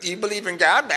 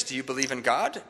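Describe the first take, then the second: First: Imitated indignant woman; mad, mocking. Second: Said in the usual way. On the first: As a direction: parrot the question back in mock annoyance. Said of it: "like, really mad at me". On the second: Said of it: "And she said".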